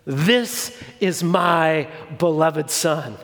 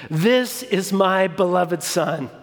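First: A hint of a deep, slow voice from heaven; slow and weighty, lightly voiced as God; lightly voiced booming God; booming divine voice. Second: Lightly booming voice of God, slow; a touch of thunder from the sky, slowed; mildly booming God repeated; booming divine voice. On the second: Acted. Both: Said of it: "in this booming, terrifying voice".

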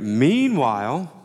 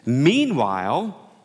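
First: Slow, rising "Meanwhile" like a TV narrator; TV show segue voice. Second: Slow, rising "Meanwhile" like a TV segue; drawn-out meanwhile. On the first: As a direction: say "Meanwhile" like the voice that opens part two. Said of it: "you know, you get". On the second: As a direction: stretch "Meanwhile" out, voice rising at the end. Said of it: "that's a great segue word for part two". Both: Shown as a demonstration.

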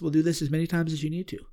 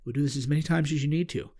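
First: Softer, fast, even and patient; calm reassurance, no hurry in the tone. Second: Softer still, a distant echoing calm. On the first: The medicine's voice reassuring him, calm and patient. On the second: The voice repeating its promise to him, softer and far off. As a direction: repeat it like a far-off gentle echo. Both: Retold or imitated. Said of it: "same tone, very calm".

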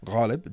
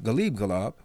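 First: "Ghalib" with a throaty gh and stress on the first syllable; original name pronunciation. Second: "Ghalib Ghalab" with a hard g and stress on the second syllables; jazz-name pronunciation. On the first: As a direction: say "Ghalib" as GHAH-lib, gh from the throat. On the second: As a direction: say "Ghalib Ghalab" as guh-LEEB guh-LAHB. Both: Shown as a demonstration. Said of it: "different, uh, pronunciation".

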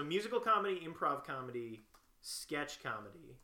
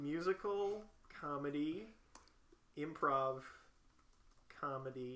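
First: Reading back. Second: Slow, separated words, pausing as you type; typing aloud. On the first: Checking the typed skills list, brisk read-back. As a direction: run through the list smoothly, without gaps. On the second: Typing skills the friend suggested, slow self-dictation. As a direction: dictate the list to yourself haltingly. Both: Real, not acted.

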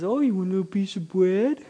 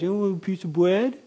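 First: Much higher, R's turned to W's: bread as bwead; lisping baby talk. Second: Much higher and fast, bread said as bwead; lisping baby talk. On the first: God offering bread to a toddler in lisping baby talk. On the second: God asking a toddler about bread in lisping baby talk. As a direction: coo it quickly to a toddler, no R's. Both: Shown as a demonstration. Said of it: "'cause you can't say your R's yet".

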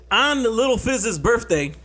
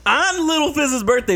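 First: Said in the usual way. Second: Higher, louder, dramatic repeat; excited build-up. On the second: Shown as a demonstration. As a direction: hype it up for the reveal.

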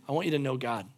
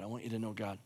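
First: Low, soft first take; quiet sincere start; soft earnest plea. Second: Much softer, low, fading away; very soft tender ending; near-silent plea. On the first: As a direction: say it gently to each listener. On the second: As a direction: let it fade to almost nothing. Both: Acted. Repeats line, fading each time.

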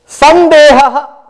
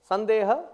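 First: Very loud, higher, drawn-out recited word; booming recitation. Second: Said in the usual way. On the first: Shown as a demonstration. Teacher reciting a Sanskrit term to students, booming recitation. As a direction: intone it slowly at full volume.

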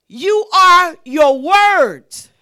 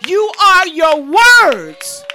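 First: "are" drawn out and leaned on, slow and firm; slow stress on ARE. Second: "words" shouted loud and slow at the peak; shouted slow climax. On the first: To the congregation, slow stress on "are". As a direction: land on "are", slow and weighty. Preacher drives home key line. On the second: Preacher to congregation, loud slow shout on "words". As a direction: hammer "words" home, full voice and slow. Preacher repeats key line louder. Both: Acted.

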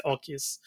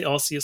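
First: Arceus said "AR-kee-us", with a K; others' hard-c pronunciation. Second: Arceus said "AR-see-us", with an S; own soft-c pronunciation. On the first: Host showing how some people say it, hard-c Arceus. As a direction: give Arceus a hard C, like "key". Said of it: "some people say Arceus". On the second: Host showing how they say it, soft-c Arceus. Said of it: "I say Arceus". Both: Shown as a demonstration.

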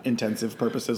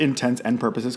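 First: "intensive purposes", first two words run into one; common mispronunciation. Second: "intents and purposes" with AND as its own word; careful pronunciation. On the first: Host showing what most people say, "intensive purposes" as a slurred-together error. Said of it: "not intensive purposes, like most people say". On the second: Host praising the guest's pronunciation, "intents and purposes" said as separate words. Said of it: "'cause that's how it's pronounced". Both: Shown as a demonstration.

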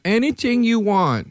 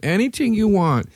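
First: High, slow come-on voice; mock seductive falsetto; imitating her. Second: High coaxing voice; mock sultry high pitch; imitating her again. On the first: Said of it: "And then she went". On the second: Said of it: "She said all that and then went".

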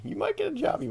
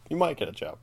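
First: Sing-song mock promise; mock hopeful job pitch. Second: Said in the usual way. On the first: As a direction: voice jumps way up on might. Mocking pitch of a hopeful line.

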